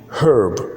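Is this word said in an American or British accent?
American. It is said with an r-colored vowel. "in American English"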